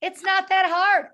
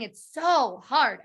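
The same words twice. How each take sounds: First: High, loud and slow, brushing it off; upbeat, confident. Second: Slow, whiny so hard; whiny drawn-out complaint. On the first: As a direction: cheerfully wave off the difficulty. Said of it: "the soul who says". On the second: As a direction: moan it out, defeated. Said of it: "She always kept saying". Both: Retold or imitated.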